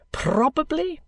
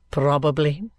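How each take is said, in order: First: High, rising, airy answer; pompous lawyer. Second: Low, level echo; dry, subdued lawyer. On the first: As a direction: let it soar upward grandly. Kenge's answer, echoed by Vholes. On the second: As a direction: answer low, giving nothing away. Vholes echoes Kenge's answer. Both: Acted.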